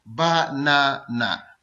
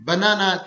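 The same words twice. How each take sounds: First: banana very slow and lower, ब-ना-ना; syllable by syllable. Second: Said in the usual way. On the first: Shown as a demonstration. Teacher demonstrating a three-syllable word, banana slowly split as ब-ना-ना. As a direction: hold each of the three beats in banana. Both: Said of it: "banana three syllable word है".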